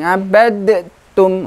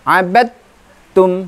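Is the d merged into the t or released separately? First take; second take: released; merged. First: The d is released with a separate bounce. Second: The d blends straight into a doubled t. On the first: The speaker calls it wrong. "bukan abadtum, nah, kurang tepat" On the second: The speaker calls it right. "qalqalahnya samar masuk ke huruf ta-nya"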